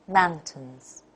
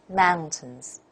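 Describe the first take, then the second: No difference in how they are said.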